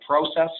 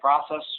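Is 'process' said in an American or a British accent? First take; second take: British; American. First: The word is said in a British accent. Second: The word is said in an American accent.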